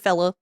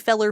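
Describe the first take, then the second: First: The word ends in an 'ah' sound. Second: The word ends in an 'er' sound. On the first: "we also say fella too" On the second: "fella is felly or feller"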